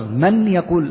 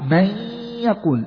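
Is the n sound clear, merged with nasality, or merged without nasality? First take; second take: clear n; nasal merge. First: The n is pronounced clearly before the y. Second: The n merges into y with nasal resonance. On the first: The speaker calls it wrong. "هكذا بالإظهار" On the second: The speaker calls it right. "50% من الفم و50% من الخيشوم"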